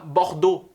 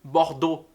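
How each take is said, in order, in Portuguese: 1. A terminação é um único som 'o'. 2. A terminação é um único som 'o'.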